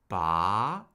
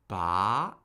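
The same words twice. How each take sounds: Both takes have the same delivery.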